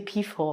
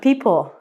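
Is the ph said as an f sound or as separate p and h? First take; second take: f sound; separate p h. First: The ph is said as one f sound. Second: The p and h are said separately. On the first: The speaker calls it wrong. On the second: The speaker calls it right.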